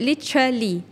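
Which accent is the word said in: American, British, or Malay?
British. It is said with a British English accent. "kalau British dia sebut"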